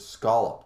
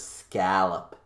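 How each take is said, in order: First: The first vowel sounds like in cot. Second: The first vowel sounds like in cat. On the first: It corrects the pronunciation. The speaker calls it right. "There's an O there" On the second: It imitates how his wife says it. The speaker calls it wrong. "She says scallop"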